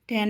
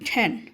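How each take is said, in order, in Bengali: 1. t ধ্বনিটি বাতাসের ফুৎকার ছাড়া বলা হয়। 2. t ধ্বনিটি বাতাসের ফুৎকারসহ বলা হয়। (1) "ট্যান না" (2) "এটা হবে ঠ্যান"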